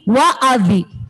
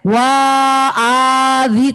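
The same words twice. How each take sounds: First: The vowel is kept short. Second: The vowel is drawn out long. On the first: The speaker calls it right. "eh pendek" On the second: The speaker calls it wrong. "tidak boleh dibaca"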